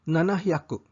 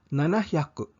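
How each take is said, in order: Both takes have the same delivery.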